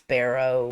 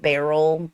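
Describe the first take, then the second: First: The word ends with an 'o' sound. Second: The word ends with an 'l' sound. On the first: This matches the written form. "but it's barrow" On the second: This is how people in the South say it. "we live in the South, so we pronounce it barrel"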